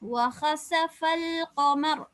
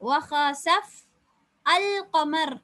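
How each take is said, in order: First: The words run together with no initial vowel. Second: A stop comes, then 'al' starts afresh. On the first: "சேர்த்து" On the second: "நிப்பாட்டினால் வஹஸஃப் அல் கமர் என்று தொடங்குறோம்"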